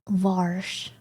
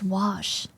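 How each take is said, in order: First: An r sound is added before the sh. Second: No r sound is heard before the sh. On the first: The speaker calls it wrong. "what many American and English speakers are guilty of" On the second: The speaker calls it right. "It's wash"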